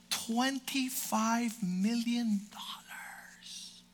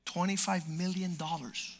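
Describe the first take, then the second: First: Slow hushed whisper of the sum; awed whisper. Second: Said in the usual way. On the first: Acted. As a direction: breathe the number slowly, in awe. Awed whisper of the huge salary.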